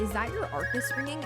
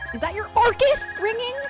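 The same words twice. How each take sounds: First: Arcus is said at normal loudness. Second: Arcus is yelled loudly.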